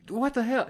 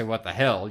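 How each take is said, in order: First: Put-on high, indignant kid yelp; mock kid outburst. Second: Said in the usual way. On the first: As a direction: play a startled kid. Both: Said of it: "or I didn't say".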